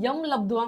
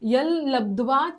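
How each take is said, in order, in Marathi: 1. पहिला शब्द m ध्वनीने संपतो. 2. पहिला शब्द l ध्वनीने संपतो. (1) "लोक यम लब्ध्वा म्हणतात" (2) "त्याचा उच्चार ल असा होतो, हलंत ल"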